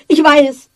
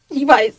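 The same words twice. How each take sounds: First: Second "ich weiß" higher and louder, punched on "ich"; nervous haste, louder. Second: First "Ich weiß" quick and anxious, falling on "weiß"; nervous haste. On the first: Wife cuts off her husband's scolding, flustered. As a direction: push the repeat "ich weiß" out sharper. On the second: Wife hastily fends off her husband's reproach. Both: A narrator's reading. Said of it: "mit nervöser Hast".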